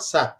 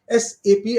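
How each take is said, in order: First: It is said as a single one-syllable word. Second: It is spelled out as three separate letters. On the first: The speaker calls it wrong. "and not S A P" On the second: The speaker calls it right. "it is called S A P"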